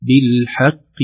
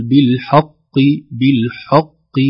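First: بالحق with a light ح and a full ق; بالحق with a thin ha and a strong qaf. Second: بالحق with the ح wrongly thickened toward ق; بالحق with a darkened ha; wrong thick ha. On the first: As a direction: say بالحق keeping the ح thin before the heavy ق. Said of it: "الحاء رقيقة". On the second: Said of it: "لا، لا". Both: Shown as a demonstration.

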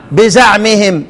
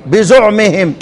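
First: "بزعمهم" with an a after the z: biza'mihim; fatha on zay. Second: "بزعمهم" with a u after the z: bizu'mihim; damma on zay. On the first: ("بزعمهم" بفتح الزاي) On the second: ("بزعمهم" بضم الزاي) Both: Shown as a demonstration. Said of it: "انفرد الكسائي بضم الزاي".

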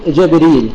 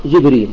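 First: “جبريل” said as Jabrīl, with a after jim and no hamza; fatha on jim. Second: “جبريل” said as Jibrīl, with i after jim and no hamza; kasra on jim. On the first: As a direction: open the first vowel of “جبريل” to a: Jabrīl. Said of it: "ومكيهم في الجيم بالفتح". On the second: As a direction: close the first vowel of “جبريل” to i: Jibrīl. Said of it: "بكسر الجيم والراء". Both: Shown as a demonstration.

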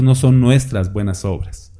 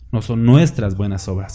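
First: "no" hit hardest, falling; "no" carries the weight, then the rest falls; stress on no. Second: "nuestras" stressed over "No"; "nuestras" the peak, lower overall. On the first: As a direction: lean on "no" to deny it. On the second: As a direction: shift the weight onto "nuestras", not ours. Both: Shown as a demonstration.

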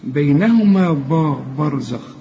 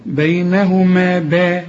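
First: "برزخ" with a heavy, broad ب; wrong heavy ب. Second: "با" said thin and light, as in باب. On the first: Teacher imitates the student's wrong heavy ب. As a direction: show the student's mistake of a heavy ب. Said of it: "ما تقولش برزخ". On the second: Teacher models the correct light ب. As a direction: chant "بينهما با" slowly with a light ب. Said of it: "شوف با زي ما تقول باب كده". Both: Shown as a demonstration.

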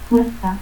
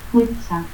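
First: Said in the usual way. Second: Fuerza as "fuetsa"; seseo. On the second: Shown as a demonstration.

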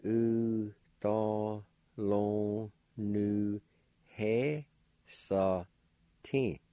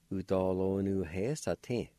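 First: "U da lon nu he sa tin" very slow, each syllable held; drawn-out "U da lon nu he sa tin", gaps between syllables; syllable-by-syllable pronunciation. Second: "U, do, lo, nu, he, sa, tin" run together as one word; "U, do, lo, nu, he, sa, tin" in one flowing go; joined-up pronunciation. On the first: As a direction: sound out "U da lon nu he sa tin" in long beats. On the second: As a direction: say "U, do, lo, nu, he, sa, tin" connected. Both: Shown as a demonstration. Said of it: "Pronounced like this".

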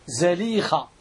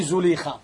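First: زليخة said with a short a after the z, "Zalikha"; زليخة with "za" as its first syllable; fatha on zāy. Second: زليخة said with a short u after the z, "Zulikha"; زليخة with "zu" as its first syllable; mispronounced zāy vowel. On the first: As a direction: say زليخة as "Za-LEE-kha", open first vowel. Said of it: "بفتح الزاي". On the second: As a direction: say زليخة as "Zu-LEE-kha", damma on the zāy. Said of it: "بفتح الزاي، ماشي زليخة". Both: Shown as a demonstration.

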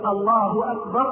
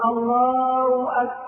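First: Said in the usual way. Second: Slow intoned "Allaaw akbar"; ha replaced by waw. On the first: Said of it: "بدل ما يقول". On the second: Shown as a demonstration. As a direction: drop the ه of "الله" into a long w. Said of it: "وإبدالها واوا". (إبدال هاء الله واوا)

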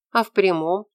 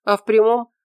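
First: «А в прямом?» as a needling question, ending on a rise; pestering question. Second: «А в прямом» as a statement leading on; answering lead-in. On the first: She keeps pestering Morris, questioning. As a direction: push «А в прямом?» upward, still prodding. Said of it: "продолжала она доставать его". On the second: He answers her pestering, stating it. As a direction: state «А в прямом» as the start of a reply. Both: A narrator's reading.

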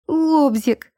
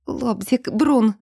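First: High, urgent cry of one word. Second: Strained, croaked call for help; hoarse wheeze. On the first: Woman clinging to the doorpost cries out, high and urgent. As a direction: call it out, pitched well up. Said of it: "выкрикнула она". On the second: Woman fighting her urge calls her partner, hoarsely. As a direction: croak the names out. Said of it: "прохрипела Эльза". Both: A narrator's reading.

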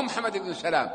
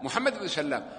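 First: سلام said salām, the mistaken reading; سلام as "sa-LAAM", undoubled; light single lam. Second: سلام said sallām, softer, with double l; سلام as "sal-LAAM"; doubled lam. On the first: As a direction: pass quickly over a single l in سلام. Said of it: "ما هو سلام اسمه". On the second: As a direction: hold the l in سلام as the correct name. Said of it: "بالتشديد". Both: Shown as a demonstration.

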